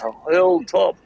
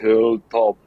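First: It is said with a New Zealand accent. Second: It is said with a German accent. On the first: "In like New Zealand, it's" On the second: "in Germany, it's"

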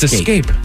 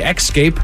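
First: No k sound comes before the s. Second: A k sound comes before the s. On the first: The speaker calls it right. "It's escape" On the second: The speaker calls it wrong. "If you say escape, you are making the word harder than it needs to be"

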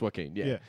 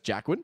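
First: The name begins with a soft 'wah' sound. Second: The name begins with a hard 'jack' sound. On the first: The speaker calls it right. "it's Joaquin" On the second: The speaker calls it wrong. "everyone referred to him as Jackwin"

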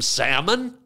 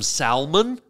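First: The L sound is silent. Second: The L sound is clearly pronounced.

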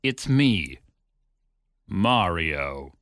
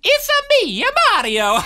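First: It is said in a plain voice. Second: It is said in a Mario impression.

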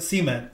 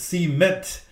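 First: The stress is on the first syllable. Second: The stress is on the second syllable. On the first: This is how the speaker's region says it. "I've always said it cement, and that's the way we say it here" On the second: This is how the listener's region says it. "I guess it's cement. I guess I need to say it that way"

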